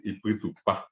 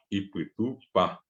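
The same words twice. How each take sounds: First: Said in the usual way. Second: "ipuitupá" said slowly, syllable by syllable; slow word demo. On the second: Shown as a demonstration. Teacher to students repeating a Guaraní word slowly. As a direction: drag out "ipuitupá" for the class. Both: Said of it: "es muy común decir".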